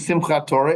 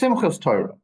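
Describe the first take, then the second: First: The first word ends with a t sound. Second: The first word ends with an s sound. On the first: "It wasn't Simchat Torah" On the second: "it was Simchas Torah"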